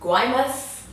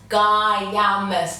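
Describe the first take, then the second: First: The name is said as Guay-mas. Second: The name is said as Guy-a-mas. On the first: The speaker calls it right. "I think I'm saying it right" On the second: The speaker calls it wrong. "I'd been saying the name of it wrong"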